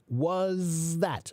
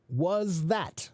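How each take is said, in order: Both takes have the same delivery.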